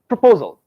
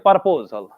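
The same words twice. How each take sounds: First: The first syllable is a quick 'pro'. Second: The first syllable sounds like 'par'. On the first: The speaker calls it right. "say proposal, pro. It has to be very quick" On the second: The speaker calls it wrong. "you don't say proposal, proposal, proposal is this, par"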